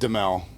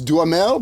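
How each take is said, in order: First: The name is said without the middle 'ha' syllable. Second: The name is said with the middle 'ha' syllable. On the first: This is how the family has always said it. "but we've always said Demel" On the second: This is how it is said in France. "if you're in France, I think it's Duhamel"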